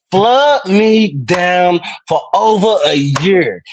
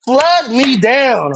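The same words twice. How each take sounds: First: Drawn out, slow and hammed-up; slow mock plea. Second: Slower still, a touch higher; slower hammed-up plea. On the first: Teasing Darlene on stream, slow hammed-up plea. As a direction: stretch each word like a mock plea. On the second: Teasing Darlene on stream, slower higher mock plea. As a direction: drag it out even more, hammed-up.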